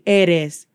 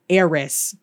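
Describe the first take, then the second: First: The r is a quick tap like a d. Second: The r is a heavy English-style r. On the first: The speaker calls it right. "It sounds more like a D" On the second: The speaker calls it wrong. "Not eres. ... there's no ruh"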